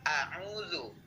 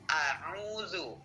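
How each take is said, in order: Both takes have the same delivery.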